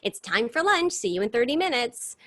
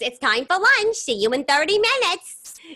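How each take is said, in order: First: It is said in the speaker's plain voice. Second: It is said imitating the teacher's accent.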